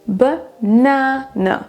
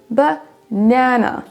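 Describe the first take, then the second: Both takes have the same delivery.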